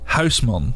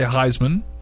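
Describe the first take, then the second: First: The first vowel is a rounded Dutch vowel. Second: The first vowel sounds like English 'eye'. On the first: This is the original pronunciation. "The actual way" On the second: This is an easier version for Americans. "the way that I just tell Americans"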